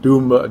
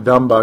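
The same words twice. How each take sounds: First: DUMBA said as DOOM-ba, with an "oo"; mispronounced DUMBA. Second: DUMBA said as DUM-ba, short "uh"; corrected DUMBA. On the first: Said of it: "it's not Dumba". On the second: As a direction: say DUMBA like "dumb-uh". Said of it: "excuse me". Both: Real, not acted.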